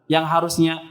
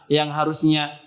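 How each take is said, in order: No difference in how they are said.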